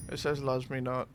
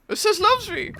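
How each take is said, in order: First: Gloomy low mutter. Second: Much higher and louder, delighted squeal; squeaky hopeful voice. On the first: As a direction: lower and softer, glum. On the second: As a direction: squeal it like a smitten girl. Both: Pretend. Petal game alternating voices.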